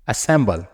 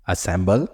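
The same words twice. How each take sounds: First: Assemble said with a firm falling tune, like a statement. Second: Assemble said with a rising tune at the end, as if to ask. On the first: Teacher first reads out the new word Assemble, falling tune. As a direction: land Assemble down at the end. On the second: Teacher repeats Assemble for the students to learn it, rising tune. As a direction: lift the end of Assemble upward. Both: Shown as a demonstration. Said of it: "teacher drills word list".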